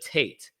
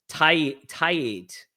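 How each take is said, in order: First: The name is said as one syllable, Tate. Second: The name is said as two syllables, tie-eight. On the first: The usual English pronunciation of the name. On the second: A Spanish-style pronunciation of the name.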